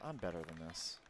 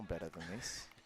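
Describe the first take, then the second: First: It is said in a plain, unaccented voice. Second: It is said in an Australian accent.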